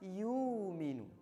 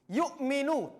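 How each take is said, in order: First: The glottal stop is softened and eased over. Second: The glottal stop is pronounced fully and clearly. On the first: "Kalau tashil" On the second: "tahqiq itu hamzahnya jelas"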